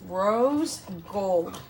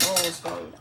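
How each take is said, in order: First: "Rose gold" slow, each word drawn out and separated; really slowly. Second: "Rose gold" quick, the two words run together. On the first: Shown as a demonstration. Mother taking care over a tricky color name, "Rose gold" really slowly. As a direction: say "Rose gold" carefully, with a gap between the words. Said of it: "I have to say it really slowly". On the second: Real, not acted. Mother stumbling on the color name, "Rose gold" run together. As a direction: say "Rose gold" quickly as one blurred phrase. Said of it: "I can't ever say that together".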